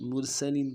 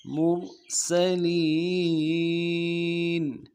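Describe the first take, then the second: First: مرسلین said quickly with a blurred س; teacher shows the wrong مرسلین; wrong reading. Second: مرسلین drawn out slowly with a clear crisp س; clear seen. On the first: A Quran teacher shows students the mistake, a rushed reading. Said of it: "مرسلین پڑھتے ہیں". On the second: A Quran teacher shows students the correct reading, a slow and clear one. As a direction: let the س in مرسلین ring out clearly. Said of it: "سین کو واضح کرنا ہے". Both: Shown as a demonstration.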